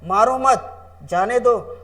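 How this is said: There is a pause after 'मत'.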